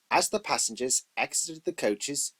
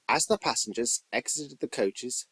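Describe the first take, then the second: No difference in how they are said.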